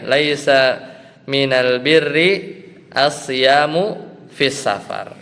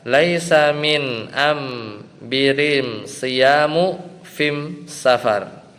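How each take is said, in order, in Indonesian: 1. Artikel itu diucapkan al seperti biasa. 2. Artikel itu diucapkan am, bukan al. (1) "mimnya diganti al lagi ya" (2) "dengan dialek Himyar ini"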